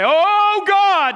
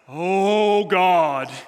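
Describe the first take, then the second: First: It is said in a loudly raised voice. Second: It is said in a solemn, serious voice. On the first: "They raise their voice when they pray" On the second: "maybe you just get real serious"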